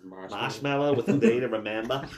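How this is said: It is read in a Boston accent.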